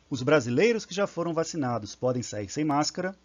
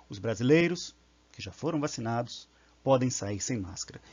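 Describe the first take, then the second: First: It flows without pauses around the clause. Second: It pauses before and after the clause.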